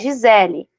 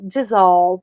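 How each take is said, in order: First: The name ends with an 'el' sound. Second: The name ends with an 'ol' sound. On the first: This is how people in Brazil read it. "as pessoas olham e leem Gisele, no Brasil" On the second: This is how people in other countries say it. "esse L E no final, ... Tem som de O"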